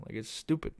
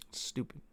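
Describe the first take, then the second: First: Said in the usual way. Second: Breathy whispered repeat, no voice; whispered aside. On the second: Shown as a demonstration. Whispering the verdict again to the camera. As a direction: drop to a whisper for the echo.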